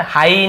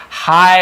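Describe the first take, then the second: First: "हाई" ending in a distinct "ee"; rejected "ee" ending. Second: "हाई" said as one drawn-out "haay"; correct "aay" glide. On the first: Teacher showing what not to say, "हाई" ending in "ee". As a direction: split "हाई" into ha-ee. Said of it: "हाई नहीं बोलेंगे हम इसे". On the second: Teacher modelling the word for students, "हाई" as long "haay". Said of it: "ऐसे बोल रहे हैं". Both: Shown as a demonstration.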